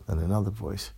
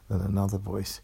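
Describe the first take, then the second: No difference in how they are said.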